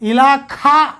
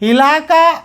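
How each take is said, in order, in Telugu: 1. k శబ్దం మహాప్రాణం, ఊపిరితో పలుకుతారు. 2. k శబ్దం అల్పప్రాణం, ఊపిరి లేకుండా పలుకుతారు. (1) "ఇలాఖా అంటారు వీళ్ళు" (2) "ఇలాకా అనే బదులుగా"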